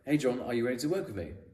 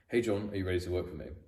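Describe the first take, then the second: First: The pitch rises at the end of the sentence. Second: The pitch falls at the end of the sentence. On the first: It is asked as a question. "if you go up at the end of a sentence, it's a question. ... That's a question" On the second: It is said as a confident statement. "if you go down at the end of a sentence, it's a statement. ... That's a statement"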